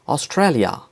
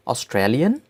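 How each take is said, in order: First: Said in the usual way. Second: "Australian" in German, ending in 'li-en', rising; German-style "Australian", lifted at the end; German pronunciation. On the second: Shown as a demonstration. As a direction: say "Australian" as the German country name. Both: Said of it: "names of countries with German accent".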